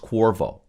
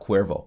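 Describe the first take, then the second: First: It does not sound like the tequila brand. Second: It sounds like the tequila brand name. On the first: The speaker calls it right. "I think it's Cuervo" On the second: The speaker calls it wrong. "not Cuervo. Cuervo is tequila company"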